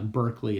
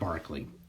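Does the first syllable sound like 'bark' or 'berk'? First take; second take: berk; bark. First: The first syllable sounds like 'berk'. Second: The first syllable sounds like 'bark'. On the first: The speaker calls it wrong. "although it looks like Berkeley" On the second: The speaker calls it right. "it's pronounced Barkley"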